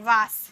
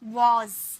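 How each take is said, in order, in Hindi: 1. शब्द का अंत फुफकार वाली s की आवाज़ से होता है। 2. शब्द का अंत गुंजन वाली z की आवाज़ से होता है। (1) "सौ का साउंड निकालते हैं वास" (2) "वास नहीं, वॉज"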